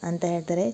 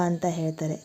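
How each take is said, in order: Both takes have the same delivery.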